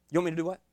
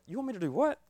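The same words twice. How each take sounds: First: Said in the usual way. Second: Higher, incredulous rising question; mock disbelief. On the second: Preacher retells Brother Marlon's message with mock disbelief. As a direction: ask it as if you can't believe the order. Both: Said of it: "Brother Marlon's first messages was like".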